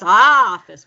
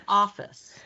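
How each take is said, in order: First: First vowel of "office" blown up loud and long; overstressed OFFICE. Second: "Office" said moderately, first vowel kept short; toned-down stress. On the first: Coach mimicking student's too-far stress, "office" overstressed. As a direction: exaggerate the opening "Ah" of "office", then drop away. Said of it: "now it's a little overstressed". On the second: Coach correcting student's overstressed word, "Office" with modest stress. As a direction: bring the "O" of "Office" down, no exaggeration. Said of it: "bring that sound down". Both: Shown as a demonstration.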